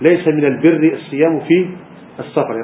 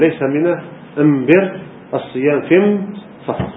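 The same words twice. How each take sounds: First: The article is pronounced with an l sound. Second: The article is pronounced with an m sound. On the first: "لا يقول" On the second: "يقول ... هذه لغة حمية"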